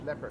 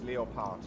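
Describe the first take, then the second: First: The word is pronounced the English way. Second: The word is pronounced the German way.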